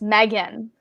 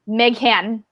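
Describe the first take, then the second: First: The name is said without an h sound. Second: The name is said with an h sound. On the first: The speaker calls it right. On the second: The speaker calls it wrong.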